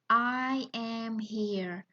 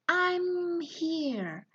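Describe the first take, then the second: First: It is spoken at normal speed with separate words. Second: It is spoken quickly, with the words merged. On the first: "that is the normal speed" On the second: "people tend to uh, say something in uh, speed"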